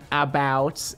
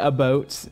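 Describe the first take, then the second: First: The vowel has a plain American sound. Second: The vowel has a partly Canadian sound. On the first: "but not about" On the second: "the Michigan O, which is also the Canadian O, which is why I say about"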